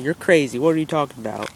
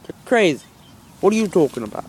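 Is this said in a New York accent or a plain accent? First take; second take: plain; New York. First: It is said in the speaker's ordinary accent. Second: It is said in a New York accent.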